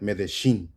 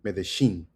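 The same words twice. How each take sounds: First: The ll is pronounced like an sh sound. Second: The ll is pronounced like an sh sound.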